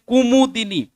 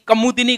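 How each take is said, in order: First: The first syllable has the vowel 'u'. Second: The first syllable has the vowel 'a'. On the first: The speaker calls it right. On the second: The speaker calls it wrong. "कमुदिनी को नहीं"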